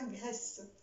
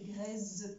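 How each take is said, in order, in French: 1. La consonne du milieu est un s sifflant. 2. La consonne du milieu est un z sonore. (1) "ça ne se prononce pas graisse" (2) "Sinon, ça fait graisse"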